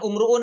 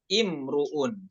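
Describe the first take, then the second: First: The word begins with an u vowel. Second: The word begins with an i vowel. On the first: The speaker calls it wrong. "bukan umruun lagi" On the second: The speaker calls it right. "tapi imruun"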